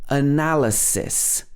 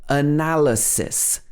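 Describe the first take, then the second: Both takes have the same delivery.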